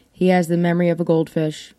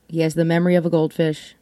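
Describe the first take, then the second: First: Has leaned on; stress on has. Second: Faster, stress moved to of; faster repeat. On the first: Telling listeners about her husband, has stressed. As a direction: lean on the word has, evenly paced. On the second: Repeating the line to listeners, quicker with of stressed. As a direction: rattle it off quicker, hitting of. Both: Shown as a demonstration.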